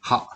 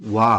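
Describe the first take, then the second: First: The syllable begins with an h sound. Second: The syllable begins with a w sound. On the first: It is read as an ordinary syllable. "ಹಿರಗನ ಪ್ರಕಾರ ಇದು ಹ" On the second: It is used as a topic particle. "Particle use ಮಾಡುವಾಗ ಇದು ವಾ ಅಂತ ಸೌಂಡ್ ಬರುತ್ತೆ"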